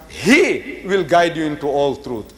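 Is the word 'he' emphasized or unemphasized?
emphasized. The pronoun 'he' is emphasized.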